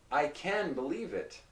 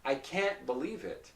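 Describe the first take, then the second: First: "can" flowing on into "believe" without a stop. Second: "can't" halted briefly before "believe"; can't with a stopped T. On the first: Teacher drilling the difference, "can" linked to "believe". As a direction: say "can" with no pause after it. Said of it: "for that sound". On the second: Teacher drilling the difference, "can't" with a stopped T. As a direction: stop the T of "can't", tiny pause, then "believe". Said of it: "There's a short pause in between". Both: Shown as a demonstration.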